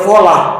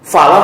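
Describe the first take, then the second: First: The first vowel is a rounded o sound. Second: The first vowel is an open a sound. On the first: The speaker calls it wrong. "dibaca folah, mana ada fo?" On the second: The speaker calls it right.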